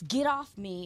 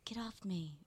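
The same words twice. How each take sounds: First: It is said forcefully and aggressively. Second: It is said softly and meekly. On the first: The player violently throws off the blocker. The speaker calls it right. "it's aggressive" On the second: The player only half-heartedly pushes the blocker away. The speaker calls it wrong. "It's not"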